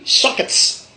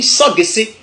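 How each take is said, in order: First: "sockets" closing on ts; English pronunciation. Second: "soggessé" in three open syllables; Godié pronunciation. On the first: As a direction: say sock-ets with a hard k. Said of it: "En anglais, on dit". (« sockets » à l'anglaise, finale en ts) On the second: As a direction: say so-gué-sé, ending on é. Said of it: "en gaudier, pardon, on dit". (« soggessé » à la godié, so-gué-sé) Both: Shown as a demonstration.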